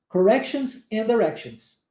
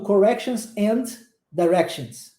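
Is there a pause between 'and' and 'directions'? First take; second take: no; yes. First: 'And' runs straight into 'directions'. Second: A pause separates 'and' from 'directions'. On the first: The speaker calls it right. "junta, and directions" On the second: The speaker calls it wrong. "Eu não fico falando"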